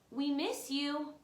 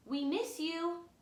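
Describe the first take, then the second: No difference in how they are said.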